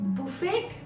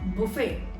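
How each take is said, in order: First: The t sound is pronounced. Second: The t sound is silent. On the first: The speaker calls it wrong. "No, no, no" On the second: The speaker calls it right. "T is silent here"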